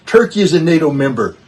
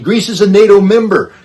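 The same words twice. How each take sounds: First: Loud, a step below the previous line; forceful follow-up, still raised; firm emphasis. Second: Much louder and higher, hammering the point; loud, emphatic declaration, peak of the build; forceful emphasis. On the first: Emphatic parallel point on NATO disunity. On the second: Emphatic point on NATO disunity. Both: Real, not acted.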